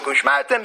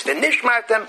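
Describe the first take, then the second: First: Ushmartem begun with "oosh", no v'ni; misreading Ushmartem. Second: V'nishmartem begun clearly with "v'nish"; corrected V'nishmartem. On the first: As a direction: cite the wrong form, Ushmartem. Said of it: "there's no such pasuk". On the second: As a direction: give the correct form V'nishmartem, pitched higher. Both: Shown as a demonstration.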